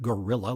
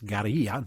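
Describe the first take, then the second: First: It sounds like the English word gorilla. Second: It is said with a Spanish-style pronunciation. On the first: The speaker calls it wrong. "not guerrilla like Mighty Joe Young" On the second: The speaker calls it right. "it's guerrilla"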